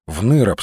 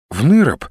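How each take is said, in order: First: Said in the usual way. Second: Mildly surprised echo question. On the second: A narrator's reading. Olga echoes his plan to leave, surprised. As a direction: echo it back with a touch of surprise. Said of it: "удивилась Ольга".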